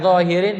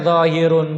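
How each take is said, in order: First: The word ends with the vowel sound 'in'. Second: The word ends with the vowel sound 'un'. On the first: It is an appositive of part to whole. "Mau dibaca zahirin boleh" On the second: It is the predicate of an omitted subject. "Mau dibaca zahirun boleh"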